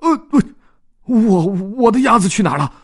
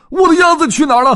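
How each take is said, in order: First: High, stammering panic; a lost owner stuttering in alarm; panicked. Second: High, loud, fast panicked shout. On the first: Dodds realizing his duck is gone, panicked and stammering. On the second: Dodds shouting for his lost duck, frantic and loud. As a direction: yell it out in full alarm. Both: Acted. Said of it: "他顿时惊慌失措".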